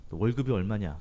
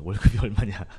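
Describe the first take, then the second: First: Said in the usual way. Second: 월급이 then a laugh, 얼마냐 louder through laughter; laughing repeat. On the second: Retold or imitated. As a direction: laugh mid-question at 월급이. Repeats uncle's question laughing.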